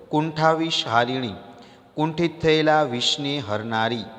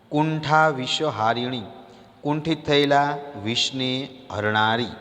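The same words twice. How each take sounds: The two takes are said the same way.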